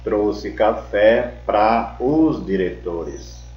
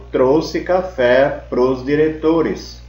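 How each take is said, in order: First: The preposition and article are said as separate words. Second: The preposition and article merge into one short syllable. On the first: "Em vez de falar" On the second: "Pra mais os, que é igual prós"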